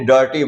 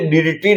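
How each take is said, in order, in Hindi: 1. पहला स्वर 'uh' जैसा बोला जाता है। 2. पहला स्वर 'ih' जैसा बोला जाता है। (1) "उसको हमने डर्टी बोला है" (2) "उसको हमने डिटी नहीं बोला है"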